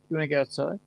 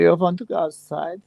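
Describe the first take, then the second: First: It is said in the speaker's usual accent. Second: It is said in a put-on German accent.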